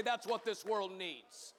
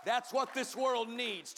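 First: Said in the usual way. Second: Loud ringing preacher's call; preached line. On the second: Acted. Pastor driving the point home to the congregation, loud. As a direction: hammer it home. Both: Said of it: "Turn to someone and say".

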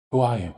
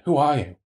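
First: Demanding. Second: Insistent, raised demand; demanding, louder. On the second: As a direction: repeat the question higher and louder. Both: A narrator's reading. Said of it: "I demanded".

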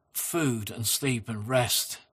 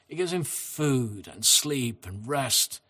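First: Slow gentle repeat. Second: Said in the usual way. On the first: Shown as a demonstration. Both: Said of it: "And again".

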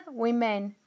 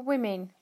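First: Laughing through the word. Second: Said in the usual way. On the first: Real, not acted. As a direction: giggle as you repeat it. Retakes word while laughing.

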